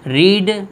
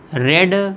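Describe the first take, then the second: First: The word has a long 'ee' vowel. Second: The word has a short 'e' vowel. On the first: It is the present form of the verb. "तो ये आपका first form हो गया" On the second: It is the past form of the verb. "ये दोनों past के हैं"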